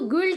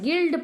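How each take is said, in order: First: A w-like glide follows the g sound. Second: The g goes straight into the vowel. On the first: The speaker calls it wrong. "ग्विल्ट नहीं पढ़ते हैं" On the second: The speaker calls it right. "गिल्ड पढ़ते हैं"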